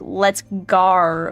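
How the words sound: The vowel in go sounds like gar. "Australians, or most of them will say like"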